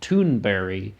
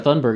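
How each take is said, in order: First: The surname is said the way its bearer says it. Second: The surname is said with a West Virginian pronunciation. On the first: "she pronounces her last name" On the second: "my West Virginian pronunciation is still ca- carrying onward"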